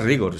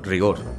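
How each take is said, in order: First: The word carries its Latin stress pattern. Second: The word carries its Spanish stress pattern. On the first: It is the Latin form of the term. "Si lo quieres decir en latín dirás rigor" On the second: It is the Spanish form of the term. "si lo quieres decir en español, rigor"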